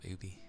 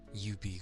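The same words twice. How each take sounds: First: It begins with a plain vowel, no 'y' sound. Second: It begins with a 'y' sound, like 'you'. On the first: The speaker calls it right. "and there's not, so I just call them" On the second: The speaker calls it wrong. "make it seem like there's a Y"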